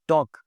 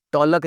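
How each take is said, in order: First: "टॉक" with no L; silent L. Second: "टॉलक" with L before K; L sounded. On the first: Teacher giving the correct word, L silent. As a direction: drop the L, "टॉक". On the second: Teacher warning learners, L sounded. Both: Shown as a demonstration. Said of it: "टॉलक नहीं बोलना जी".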